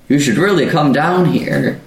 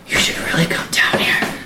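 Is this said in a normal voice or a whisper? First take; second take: normal voice; whisper. First: The words are said in a normal voice. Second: The words are said in a soft whisper.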